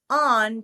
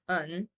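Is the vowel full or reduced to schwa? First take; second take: full; schwa. First: The word is said with a full vowel. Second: The vowel is reduced to a schwa. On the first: "change the pronunciation of these words from" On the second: "put a schwa in its place"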